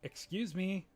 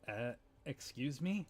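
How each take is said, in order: First: It is said more loudly. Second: It is said quietly.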